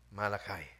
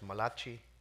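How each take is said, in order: First: The name is said in the usual English way. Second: The name is said with an Italian-sounding pronunciation.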